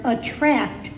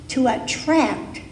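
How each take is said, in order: First: Attract set apart by a pause and weighted, falling at the end; stress on attract. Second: Said in the usual way. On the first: Shown as a demonstration. The minister emphasizes attract to the congregation, stressing it. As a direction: lean on the word attract on its own. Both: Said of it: "and I emphasize that word".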